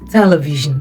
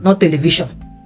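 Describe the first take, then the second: First: The S is said with a z sound. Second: The S is said with an s sound. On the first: The speaker calls it right. "letter S, making the sound Z" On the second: The speaker calls it wrong.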